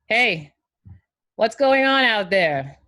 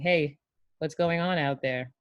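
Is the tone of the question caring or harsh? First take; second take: harsh; caring. First: It sounds harsh and confrontational. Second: It sounds gentle and caring. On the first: The speaker is scolding the listener. The speaker calls it wrong. "It is not just what you say, it's how you say it" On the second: The speaker cares about the listener. The speaker calls it right. "placing your arm around the player and saying"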